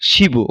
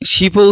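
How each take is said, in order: First: The consonant links on as a voiced b. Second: A clipped p comes before a separate vowel. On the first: The speaker calls it right. "সঠিক উচ্চারণটি কি হবে?" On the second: The speaker calls it wrong. "এই শিপ ও উচ্চারণটি ভুল।"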